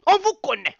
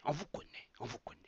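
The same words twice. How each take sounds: First: High and loud, driving the point home; accusing. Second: Much softer, almost under the breath; fading repetition. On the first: Telling the old leaders he knows them, loud accusation. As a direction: throw it at them. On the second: Repeating to the old leaders that he knows them, fading to a murmur. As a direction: let it die away knowingly. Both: Real, not acted.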